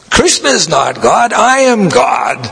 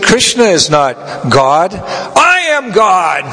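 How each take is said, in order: First: Mock hippie boast. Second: Slow drawn-out boast, last words pitched far higher; mock a hippie proclaiming himself God. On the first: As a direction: throw the claim out like a defiant hippie. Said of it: "the hippie was saying such a way, blaspheming". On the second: Hippie boasting to Prabhupada, slow and rising.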